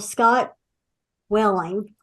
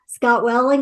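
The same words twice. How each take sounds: First: The name is said slowly and carefully. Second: The name is said quickly and run together. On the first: "I have to say it slowly" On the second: "if you say his name quickly"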